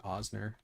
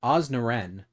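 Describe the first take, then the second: First: Osner said quietly, two syllables; softly fix it to Osner; corrected name. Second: Osnaren, an extra syllable tacked on; mispronounced name. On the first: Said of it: "What is wrong with me?". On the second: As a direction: say Osnaren with a mistaken ending. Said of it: "why did I say it like that?". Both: Shown as a demonstration.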